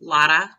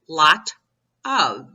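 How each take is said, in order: First: The two words blur together into lotta. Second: Both words are said separately and clearly. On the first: The speaker calls it wrong. "it's L O D D A" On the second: The speaker calls it right. "No, it's lot of"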